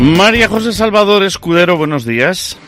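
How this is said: It uses an old-fashioned 1970s announcer intonation. The speaker calls it wrong. "He puesto en la entonación años 70"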